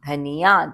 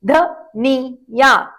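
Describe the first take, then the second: First: Said in the usual way. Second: Each syllable stretched slowly, short i kept short; drawn out. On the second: Shown as a demonstration. Teacher to children, slow syllable-by-syllable demo. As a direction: spell it out slowly for kids. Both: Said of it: "तभी छोटी ध्वनि निकालें".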